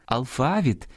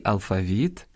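First: "алфавіт" stressed on the middle syllable, алфАвіт; stress on second syllable. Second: "алфавіт" stressed on the last syllable, алфавІт. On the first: Host showing parallel stresses, "алфавіт" with middle-syllable stress. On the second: Host showing parallel stresses, "алфавіт" with final-syllable stress. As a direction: lean on the І of "алфавіт". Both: Shown as a demonstration. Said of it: "подвійне або паралельне наголошування".

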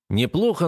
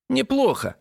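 First: Said in the usual way. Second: Mocking copy of his tone, much higher; parodying his intonation. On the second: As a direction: echo his word back, teasing. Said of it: "пародируя мои интонации".

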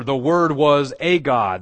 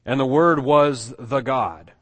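First: Slow, loud A pronounced "ay" before GOD; stress on A. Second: Slow, loud THE WORD WAS THE GOD; stress on THE. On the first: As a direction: punch A as a full "ay" in A GOD. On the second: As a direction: spell out the wrong reading with weight on THE GOD. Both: Shown as a demonstration. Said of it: "you could say it this way".

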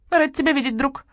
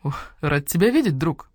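First: Parroted greeting. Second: Said in the usual way. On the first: Acted. Starling parrots greeting back.

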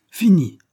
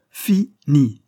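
First: "Fini" thrown out high and loud in one piece; emphatic FINI. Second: "Fini" broken into two loud, separate syllables; syllable-split FINI. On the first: Boss warns his men the till will close, emphatic "Fini". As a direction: punch "Fini" as one quick, high word. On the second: Boss drives home the threat to his men, split "Fini". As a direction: hammer out "Fini" as fi, pause, ni. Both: A narrator's reading.

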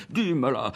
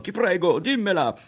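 First: Eager, higher plea; begging. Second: High, loud pleading cry; urgent begging. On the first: Ario begs Berto to share the idea, eagerly. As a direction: beg your friend to tell you. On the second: Ario jumps around Berto, loudly begging to hear it. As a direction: hop around him, begging. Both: A narrator's reading. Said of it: "supplicò".

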